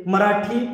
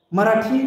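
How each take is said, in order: Both takes have the same delivery.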